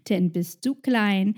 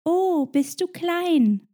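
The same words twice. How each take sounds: First: Said in the usual way. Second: High, slow cooing "Oh, bist du klein?"; mocking a stranger who pats the head; patronising coo. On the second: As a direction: talk down to a child, drawn out. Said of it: "es sagt".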